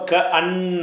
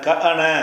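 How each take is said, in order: First: The n sound is held long and doubled. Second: The n sound is short and single. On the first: "ஷத் இருக்குது. அப்போ க அன்ன, க அன்ன அப்படி சொல்லணும்" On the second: "க அன க அன அப்படின்னு இருக்குது"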